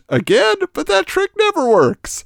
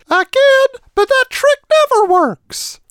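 First: It is said in his normal voice. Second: It is said in a squeaky cartoon voice.

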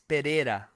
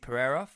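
First: The name is said in a Brazilian accent. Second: The name is said in a plain English accent.

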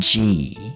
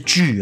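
First: The vowel ends with spread, smiling lips, like ee. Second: The vowel ends with rounded lips, like jü. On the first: The speaker calls it right. "注意那个尾音呢是E 的，是嘴巴笑笑" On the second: The speaker calls it wrong. "不是锯哦"

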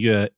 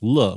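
First: The word begins with a Y sound. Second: The word begins with an L sound. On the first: It means music. "my last name, Yue" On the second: It means joy or happiness. "it can also be pronounced le"

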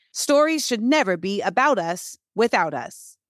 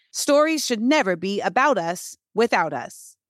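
Both takes have the same delivery.

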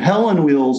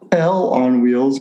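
First: The first part runs together as one name, Helen. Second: The first part is said as two words, hell on. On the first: It is a harmless name. The speaker calls it right. "I'm saying Hell on Wheels" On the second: It contains a swear word. The speaker calls it wrong. "not Hell on Wheels, because that was a bad word"

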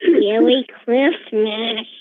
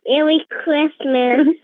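First: It is said flatly, without much cheer. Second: It is said in a cheerier voice.

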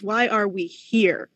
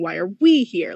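First: The stress falls on the word here. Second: The stress falls on the word we. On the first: It asks about our place and time. "the astronomer is asking" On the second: It asks about our bodies. "the biologist is asking"

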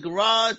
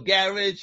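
First: It is said with an American pronunciation. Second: It is said with a British pronunciation.

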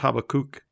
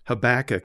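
First: The stress falls as in British usage. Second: The stress falls as in American usage. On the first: "in more British-oriented countries, it's Habakkuk" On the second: "as we call him"

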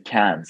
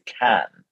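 First: The final consonant sound is pronounced. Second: The final consonant sound is left silent. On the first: The speaker calls it wrong. "we don't say Cannes in French. We don't pronounce the last letters" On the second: The speaker calls it right. "Remember, we say Cannes"

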